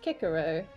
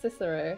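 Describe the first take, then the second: First: The name begins with a hard K sound. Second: The name begins with a soft S sound. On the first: The speaker calls it right. "the patch name is pronounced Kikero" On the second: The speaker calls it wrong. "not Cicero"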